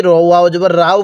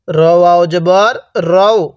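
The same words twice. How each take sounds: First: রাও said wrongly with a long open aa; mispronounced রাও with stretched aa; common mistake. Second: রও said as a short "ro-o", no long aa; রও short and rounded, slowly demonstrated; correct short ro. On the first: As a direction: show the error: রাও instead of রও. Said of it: "অনেকেই র ওয়াও জবর রাও পড়ে". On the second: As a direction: say রও with a short rounded o, not রাও. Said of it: "র ওয়াও জবর যদি রাও পড়ি". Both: Shown as a demonstration.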